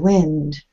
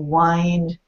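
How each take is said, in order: First: The vowel is short, like in 'pinned'. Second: The vowel is long, like in 'kind'. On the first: It means moving air. "but the wind blows" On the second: It means to turn something round. "wind is the verb. If you wind an old-fashioned watch"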